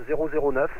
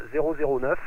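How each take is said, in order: Both takes have the same delivery.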